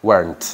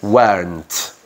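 First: "Weren't" with a clear r; American weren't. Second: "Weren't" said like went, no r; British weren't. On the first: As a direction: roll in the American r. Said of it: "un americano lo pronuncia". ("Weren't" americano, con R) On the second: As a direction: drop the r British style. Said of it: "británico esta S se hace muda". ("Weren't" británico, sin R) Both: Shown as a demonstration.

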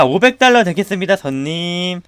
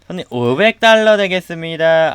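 First: Said in the usual way. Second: Polite clerk voice. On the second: Pretend. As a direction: stretch 되겠습니다 like a sugary shop clerk. Repeats in clerk voice.

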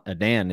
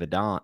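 First: Adan ending like "Dan"; corrected pronunciation. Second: Adan ending like "don"; playful mispronunciation. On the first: Podcaster correcting the book title, Adan rhymed with "man". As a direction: say Adan with the short "a" of "cat" in the last syllable. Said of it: "I know it's Edan". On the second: Podcaster pitching the show, Adan rhymed with "gone". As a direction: say Adan with an open "ah" in the last syllable. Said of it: "Adan sounds way cooler". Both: Real, not acted.

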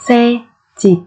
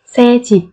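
First: Slow, separated syllables for learners; careful teacher's slow model. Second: Said in the usual way. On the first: Shown as a demonstration. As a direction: spell it out slowly, beat by beat.

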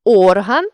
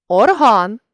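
First: Орган with ОР stressed; stress on first syllable. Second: Орган with final ГАН stressed; stress on last syllable. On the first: Teacher means a body part, Орган stressed on ОР. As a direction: punch the opening ОР of Орган. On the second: Teacher means the instrument, орган stressed on ГАН. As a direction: land on ГАН ending орган. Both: Shown as a demonstration. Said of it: "залежно від наголосу".

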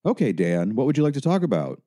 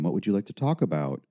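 First: Chatty helper with a high, quick lilting question; overly casual phone-counsellor voice; louder, too conversational. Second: Quick, lightly melodramatic helper; understated syrupy phone-helper voice; tiny, melodramatic. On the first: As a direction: ask breezily, pitch climbing. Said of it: "David's voice was instantly louder and yet too conversational". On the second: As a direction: ask with a gentle over-earnest lilt. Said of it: "a tiny, melodramatic voice came on the phone". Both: A narrator's reading.

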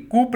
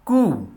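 First: कूप with the p sounded, the mistake to avoid; wrong pronunciation. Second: कू said as a single sound with a silent p; correct pronunciation. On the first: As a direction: demo the wrong कूप, p pronounced. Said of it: "कूप नहीं बोलेंगे आप इसको". (गलत उच्चारण कूप, प की आवाज़ के साथ) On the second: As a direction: give the right कू, no p at the end. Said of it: "इसका सही प्रोनाउंसिएशन है". (सही उच्चारण कू, अंत में प नहीं) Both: Shown as a demonstration.

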